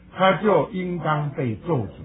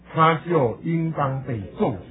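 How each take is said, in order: Both takes have the same delivery.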